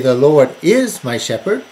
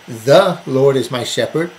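First: The stress is on "is". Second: The stress is on "The".

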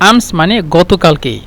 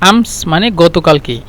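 The two takes are said the same way.

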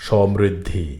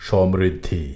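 Both takes have the same delivery.

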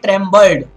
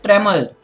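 First: The B sound is clearly pronounced. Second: The B sound is left silent. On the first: The speaker calls it wrong. "You shouldn't go ahead and say trembled" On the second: The speaker calls it right. "You should say trembled. ... The B is silent there"

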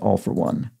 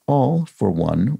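First: The words run together without a pause. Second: There is a pause after the first word. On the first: It is the ordinary phrase. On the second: It means All, for example, a laundry detergent.

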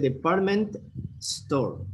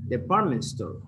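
First: The two words are said as separate words. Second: The two words run together like one word. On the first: The speaker calls it wrong. "Don't say department store" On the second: The speaker calls it right. "these two words sounds like one"

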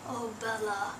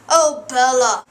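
First: It is said quietly. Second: It is said loudly.

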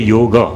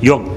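First: The word ends with a final a vowel. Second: The word ends on the consonant g. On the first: "But I want to say yoga. So that is why a is added" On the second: "If I say yog, it will be pronounced as yog"

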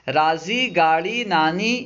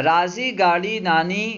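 No difference in how they are said.

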